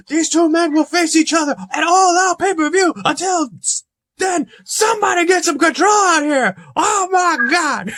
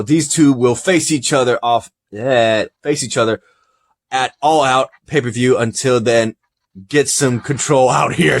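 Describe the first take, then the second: First: Very high-pitched, shouted wrestling commentary; hammed-up ringside hysteria, straining to the last word; frantic Jim Ross. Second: Said in the usual way. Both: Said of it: "says Jim Ross".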